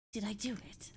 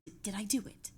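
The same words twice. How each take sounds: First: Softer whispered breathy take; whispered retry. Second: Said in the usual way. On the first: Shown as a demonstration. Streamer checking the Voldemort voice again, whispered. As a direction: breathe it out instead of voicing it.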